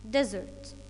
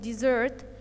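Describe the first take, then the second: First: The stress is on the first syllable. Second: The stress is on the second syllable. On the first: A very dry place with little rainfall. "it's a noun, and look here at the stress mark, it's on the first syllable" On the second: To stop helping someone by leaving them. "the verb ... on the second syllable"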